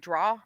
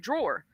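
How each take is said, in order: First: The word ends without an R sound. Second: The word ends with a clear R sound. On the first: This is how people from that region say it. "They say draw" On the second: This is how the speaker herself says it. "I say it with an E R too"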